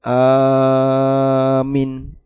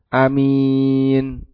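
First: The second vowel is short. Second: The second vowel is drawn out long. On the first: The speaker calls it wrong. "dia malah baca pendek. Ini salah" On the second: The speaker calls it right. "minnya yang panjang"

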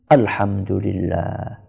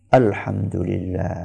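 Both takes have the same delivery.

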